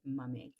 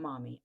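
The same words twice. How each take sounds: First: "mummy" with a short uh in the first syllable; British "mummy". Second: "mommy" with an open ah in the first syllable; American "mommy". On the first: Explaining British callers' word for moms, British "mummy". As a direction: say "mummy" the British way, MUH-mee. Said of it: "that's what they call their moms". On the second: Explaining what British callers don't say, American "mommy". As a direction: say "mommy" the American way, MAH-mee. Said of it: "Not mommy, mummy". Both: Shown as a demonstration.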